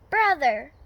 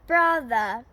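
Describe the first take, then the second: First: The final R is clearly pronounced. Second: The final R is dropped, ending in ah. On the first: "we do pronounce the R" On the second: "we do not really pronounce the R"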